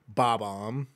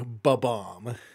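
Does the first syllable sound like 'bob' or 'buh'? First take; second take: bob; buh. First: The first syllable sounds like 'bob'. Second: The first syllable sounds like 'buh'. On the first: It follows the way the word is written. "I've always said Bob-omb because that's how it's written" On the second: It is the common, quicker way to say it. "the majority of people say Ba-bomb"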